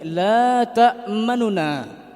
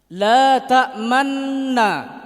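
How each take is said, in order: First: A faint short u separates the two n sounds. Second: The two n sounds merge into one doubled n. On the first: "memberikan setengah baris, memberi suara kepada nun yang pertama" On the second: "Bunyi tidak berubah, cuma gerak mulut saja"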